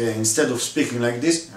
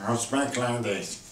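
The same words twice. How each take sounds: First: Said in the usual way. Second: Stuffed-up, closed nasal sound; nasal cold voice. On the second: Shown as a demonstration. Teacher showing the choir the no-sound, like having a cold. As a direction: speak softer as if your nose is blocked with a cold. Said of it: "like when you have a cold".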